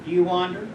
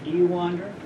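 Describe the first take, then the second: No difference in how they are said.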